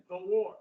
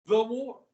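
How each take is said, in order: First: "The war" with the weight on "war" and "The" kept light; stress on WAR. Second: "the war" with the word "the" pushed out loud and long; stress on THE. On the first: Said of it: "They call it the war". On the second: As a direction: lean hard on "the" in "the war". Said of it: "This is the war". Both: Shown as a demonstration.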